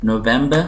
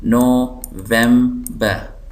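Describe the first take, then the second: First: Said in the usual way. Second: November very slowly as NO, vem, ber; syllable by syllable. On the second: Shown as a demonstration. Teacher showing three syllables, November slowly split. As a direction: break November into three spaced beats. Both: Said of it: "तीन syllable".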